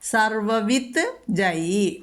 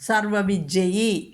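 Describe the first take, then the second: First: A t sound comes before the j. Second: The t becomes j, giving a double j. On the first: "സർവവിത്ത്... പിന്നെ ജയി എന്നുണ്ട്" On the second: "ത എന്നുള്ളത് ജ എന്നുള്ളതിനെ സ്വീകരിക്കുന്നു"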